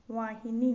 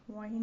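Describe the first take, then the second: First: वाहिनी ending in long ee, loud; correct pronunciation. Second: वाहिन cut off on n; wrong pronunciation. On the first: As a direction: stretch the final vowel of वाहिनी. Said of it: "होता है". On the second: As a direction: end वाहिन without a final vowel. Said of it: "नहीं होता". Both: Shown as a demonstration.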